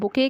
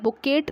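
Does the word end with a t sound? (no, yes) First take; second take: no; yes. First: The word ends without a t sound. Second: The word ends with a t sound. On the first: The speaker calls it right. "इसको हम बुके कहते हैं" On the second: The speaker calls it wrong. "बुकेट नहीं कहते"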